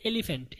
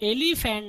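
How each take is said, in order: First: "एलिफेंट" compact, e-li-fent; correct pronunciation demo. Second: "एलिफेंट" stretched as e-lee-fan; wrong pronunciation demo. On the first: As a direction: keep the "li" short and end "एलिफेंट" on "fent". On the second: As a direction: lengthen the middle of "एलिफेंट" and open the last vowel, e-lee-fan. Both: Shown as a demonstration. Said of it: "इसको आप एलिफेंट नहीं पढ़ेंगे".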